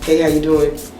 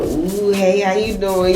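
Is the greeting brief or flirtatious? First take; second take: brief; flirtatious. First: A brief, neutral greeting, then moving on. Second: A drawn-out, flirtatious, lingering greeting.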